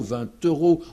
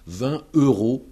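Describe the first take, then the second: First: The T is linked into euros. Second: The T is silent before euros. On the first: The speaker calls it right. "il faut dire" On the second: The speaker calls it wrong. "on n'entend pas la liaison"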